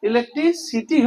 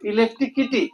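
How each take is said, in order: First: The syllable before the last is said 'si'. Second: The syllable before the last is said 'ki'. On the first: The speaker calls it right. "ইলেকট্রিসিটি হওয়ার কথা" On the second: The speaker calls it wrong. "উচ্চারণ করছে ইলেকট্রিকিটি"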